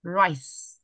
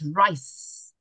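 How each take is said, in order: First: The word ends with a clear s sound. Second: The same.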